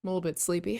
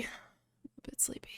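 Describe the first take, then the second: First: Said in the usual way. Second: Whispered sleepily, slow; sleepy whisper. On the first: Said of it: "sorry for my groggy voice". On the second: Shown as a demonstration. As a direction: breathe it out like half asleep.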